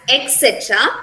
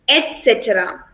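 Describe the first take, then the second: First: The word is said quickly and reduced. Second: The word is said carefully and in full. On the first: The speaker calls it wrong. "while talking fast, we pronounce this word as" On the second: The speaker calls it right. "here the correct pronunciation is"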